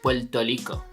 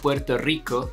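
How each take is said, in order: First: Rico begins with an L sound. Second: Rico begins with an R sound. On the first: The speaker calls it wrong. "they say Puerto Rico... transform some R's into L's" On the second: The speaker calls it right. "Instead of Puerto Rico"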